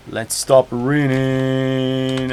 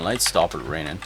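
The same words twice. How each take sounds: First: Very slow "raining" on a long held note; drawn-out. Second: Said in the usual way. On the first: Real, not acted. Streamer stopping the rain in game, long drawn-out delivery. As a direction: stretch out the end of "raining".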